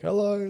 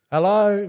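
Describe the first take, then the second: First: Higher but softer, sheepish flat hello; sheepish answer. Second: Higher, questioning hello with a rise; calling into the dark. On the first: Caught driving through camp, soft sheepish hello. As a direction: answer back quietly, caught out. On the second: Campers call to strangers in the bush, high wary hello. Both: Retold or imitated.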